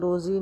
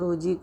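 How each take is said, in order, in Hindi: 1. बीच का व्यंजन एक गूंजती हुई 'z' ध्वनि है। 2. बीच का व्यंजन 'j' ध्वनि है। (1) "हिंदी में उसे रोज़ी नहीं कहेंगे" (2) "बल्कि रोजी कहेंगे"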